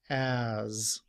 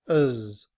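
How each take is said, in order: First: The word has a full open vowel. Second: The word has a weak uh vowel. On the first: "This symbol sounds like a, and then we have the letter z" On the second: "in reduced form, as is written with the schwa"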